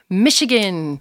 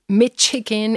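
First: The middle consonant sounds like 'sh'. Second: The middle consonant sounds like 'tch'. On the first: The speaker calls it right. "it's Michigan" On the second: The speaker calls it wrong. "it's not Michigan"

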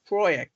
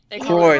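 First: The name ends with an audible x sound. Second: The name ends in an oy sound, no x. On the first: "I always pronounce the X" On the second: "The English dub just calls her Croy"

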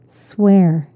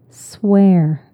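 Both takes have the same delivery.

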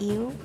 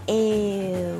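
First: The first vowel is short. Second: The first vowel is lengthened. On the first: The speaker calls it wrong. "I hear a lot of people saying eu" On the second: The speaker calls it right. "get the vowel, the first vowel, e, and then elongate it a little bit"

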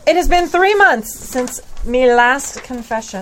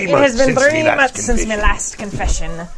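First: It is read in a normal voice. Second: It is read in a put-on pirate voice.

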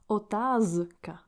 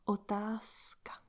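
First: The middle consonant is a voiced z sound. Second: The middle consonant is a voiceless s sound. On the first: The speaker calls it wrong. "we don't pronounce otázka. The Z, Z sound, voiced sound" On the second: The speaker calls it right. "will become S, voiceless sound. So we pronounce otázka"

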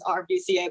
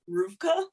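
First: The name is spelled out letter by letter. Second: The name is said as one two-syllable word. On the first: The speaker calls it wrong. "I always thought it was RVCA" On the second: The speaker calls it right. "but it's pronounced Rufka"

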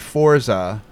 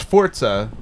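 First: It is said with an Anglicized pronunciation. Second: It is said with an Italian pronunciation. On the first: The speaker calls it wrong. "they'll say Forza" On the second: The speaker calls it right. "it's Forza, like, because it's Italian"

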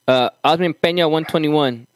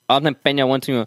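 First: It is read in the speaker's own normal voice. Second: It is read in an imitated, put-on voice.

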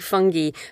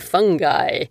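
First: The word is said the British way. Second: The word is said the American way. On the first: "in Britain, we say fungi" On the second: "Americans say fungi"

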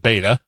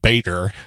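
First: It is said in a New England accent. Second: It is said in a general American accent. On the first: "But in New England, where I'm from, it's a beta" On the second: "anywhere else in the country, it would be Bader"

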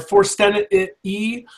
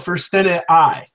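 First: The final vowel sounds like 'ee'. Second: The final vowel sounds like 'eye'. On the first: This follows the Church Latin reading. "In the Northern Church Latin, the long I sound is the E sound" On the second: This follows the Anglicized Latin reading. "in the Anglicized Latin, it is that long I sound"

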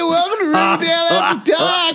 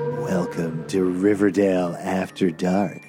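First: It is said in a cheerful upbeat voice. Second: It is said in a creepy drawn-out voice.

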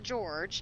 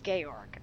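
First: The name ends in a soft j sound. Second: The name ends in a hard g sound. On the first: The speaker calls it wrong. "It's not George" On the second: The speaker calls it right. "it's Georg"

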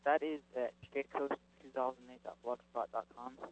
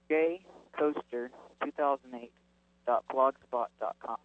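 First: It is said faster and more quietly. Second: It is said slower and more loudly.

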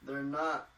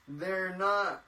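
First: It is said quietly. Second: It is said loudly.

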